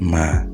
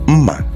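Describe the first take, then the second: First: It goes from a high to a mid tone. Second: It goes from a high to a low tone. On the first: It means good. "Now it's a mid tone" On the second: It means knife. "which is high tone, low tone"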